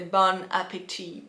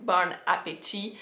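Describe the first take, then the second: Both takes have the same delivery.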